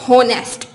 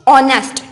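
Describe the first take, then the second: First: The word starts with an audible h sound. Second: The word starts with a vowel, no h sound. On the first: The speaker calls it wrong. "Not होनेस्ट। एच की sound नहीं आती" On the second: The speaker calls it right. "तो हम क्या पढ़ते हैं इसको, ऑनेस्ट"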